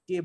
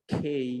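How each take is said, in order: First: "কে" with no puff of air or glide; wrong, local pronunciation. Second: "খেই" with breathy k and closing glide; correct English pronunciation. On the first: Teacher quotes the common mistake, "কে" without aspiration. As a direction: say "কে" with an unaspirated k. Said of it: "wrong pronounce করে থাকি". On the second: Teacher models the letter K, "খেই" heavily aspirated. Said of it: "যেগুলো হবে". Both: Shown as a demonstration.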